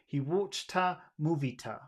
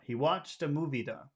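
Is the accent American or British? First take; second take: British; American. First: The t between words is a strong, crisp t. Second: The t between words sounds like a soft d. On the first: "in standard British English, it would be" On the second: "So in North America, my accent, it would be da"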